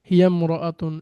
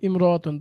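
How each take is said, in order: First: The opening vowel is dropped, linked to the word before. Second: The opening vowel is clearly pronounced. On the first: "এই যে এখানে কিন্তু আলিফটা আমরা পাইনি" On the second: "যখন শব্দটা একা থাকে ইমরাতুন তখন এটা উচ্চারিত হয় স্পষ্টভাবে"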